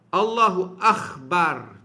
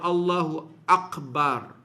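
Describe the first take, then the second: First: The consonant in Akbar is a rasping kh. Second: The consonant in Akbar is a plain k. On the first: The speaker calls it wrong. "Allahu Akhbar, contoh. Batal" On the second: The speaker calls it right. "Jangan tukar huruf"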